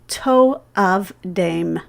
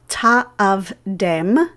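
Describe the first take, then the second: First: The first vowel sounds like 'oh'. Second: The first vowel sounds like 'ah'. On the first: Do not be enticed into worshiping them. The speaker calls it right. "but rather to'avdem" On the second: Do not worship them. The speaker calls it wrong. "we should pronounce this word not ta'avdem"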